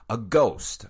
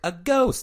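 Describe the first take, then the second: First: It is said in a plain narrating voice. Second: It is said like the Liar Liar 'a goose' line.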